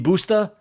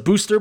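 First: The word ends in an open vowel without r. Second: The word ends with a pronounced r sound.

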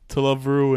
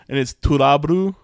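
First: It is said in a plain English accent. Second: It is said in a mock Japanese accent.

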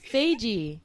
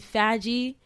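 First: The name starts with 'Faye', then adds 'G'. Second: The name starts with a short 'fag' sound. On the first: The speaker calls it right. "Faye, and just add G" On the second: The speaker calls it wrong. "I said that with so much confidence"

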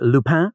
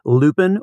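First: The name is said with a French pronunciation. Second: The name is said with an English pronunciation.

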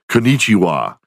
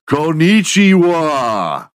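First: It is said at normal loudness. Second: It is said loudly.

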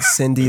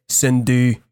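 First: It is said with an English accent. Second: It is said with a Quebec French accent. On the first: "instead of saying Cindy" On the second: "they say Cindy"

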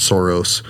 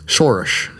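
First: The name begins with a plain 's' sound. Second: The name begins with an 'sh' sound. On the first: The speaker calls it wrong. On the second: The speaker calls it right.

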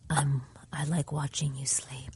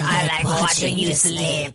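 First: It is said in a soft, seductive way. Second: It is said in an eerie, unsettling way. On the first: "That's not even creepy enough. Like I feel like that was kind of sexy a little bit" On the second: "it's really freaking creepy"

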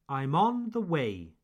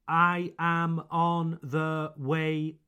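First: The stress is on 'on' and 'way'. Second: It is said flat, like a robot.

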